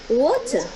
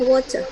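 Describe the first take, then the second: First: It is said in a British accent. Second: It is said in an American accent. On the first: "kalau Inggris Inggris water" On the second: "kalau Inggris Amerika dibaca water"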